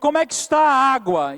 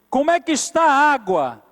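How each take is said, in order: First: It is said at a normal pace. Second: It is said more slowly.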